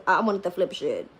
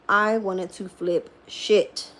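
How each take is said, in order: First: Said in the usual way. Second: Each word of "I wanted to flip shit" drawn out slowly; slow emphatic repeat. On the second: Real, not acted.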